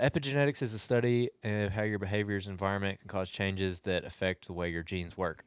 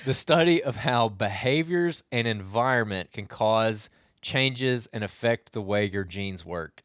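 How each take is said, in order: First: It is read quickly. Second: It is read more slowly.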